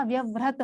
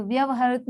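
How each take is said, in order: First: व्यवहृत with the short joined "hrit"; correct form. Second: व्यवहारित ending in "ha-rit"; wrong form. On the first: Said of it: "व्यवहृत होता है". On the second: Teacher citing the error, व्यवहारित with "rit" at the end. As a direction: say व्यवहारित with a full रित ending. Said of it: "व्यवहारित नहीं होता". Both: Shown as a demonstration.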